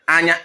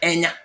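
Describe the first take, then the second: First: The word begins with an 'a' vowel. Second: The word begins with an 'e' vowel. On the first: This is the speaker's own dialect form. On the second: This is the form used in parts of Ebonyi.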